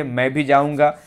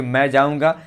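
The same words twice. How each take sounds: First: "भी" pressed a little harder; stress on भी. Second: Said in the usual way. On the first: Shown as a demonstration. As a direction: lean on the word "भी" to insist. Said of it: "एक pressure बन रहा है कि मैं भी जाऊँगा". ("भी" पर ज़ोर) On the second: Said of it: "फिर भी सही वाक्य है".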